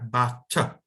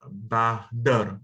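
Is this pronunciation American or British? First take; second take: British; American. First: It has British pronunciation with no R sound. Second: It has American pronunciation with a soft T and R. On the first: "Di British itu bacanya butter" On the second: "di Amerika ... makanya kita pakai the kayak bahder"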